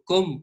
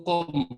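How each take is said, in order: First: Com said with a plain Spanish k as in casa; Castilian pronunciation. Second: Com said with nose pinched, glottal k; Qom word, nose pinched. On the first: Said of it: "si yo descarto la lengua com, digo com". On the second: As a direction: com pronounced nasal, nose held shut. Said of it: "Me tapo la nariz y digo com". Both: Shown as a demonstration.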